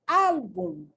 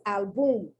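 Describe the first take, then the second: First: The stress is on the first syllable. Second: The stress is on the second syllable. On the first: The speaker calls it right. "the correct accent" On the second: The speaker calls it wrong. "where I put it over the U instead of the A"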